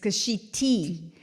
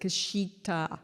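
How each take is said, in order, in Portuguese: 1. O nome termina com um som de 'ee'. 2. O nome termina com um som de 'ah'. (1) "It's Kashiti" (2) "I keep pronouncing it wrong"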